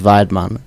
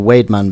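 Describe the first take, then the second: First: The first syllable does not sound like 'wade'. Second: The first syllable sounds like the word 'wade'. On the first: "but the pronunciation is Weidmann" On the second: "like Wade, you see, it's got the W"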